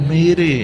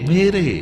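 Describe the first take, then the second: Both takes have the same delivery.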